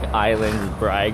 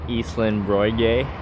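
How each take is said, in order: First: The name is read with plain English sounds. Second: The name is said with Danish vowel sounds. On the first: This is how a newcomer would guess it. The speaker calls it wrong. "you think that's like Island Brag" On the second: This is how locals actually say it. The speaker calls it right. "it's pronounced, I'm gonna get this wrong"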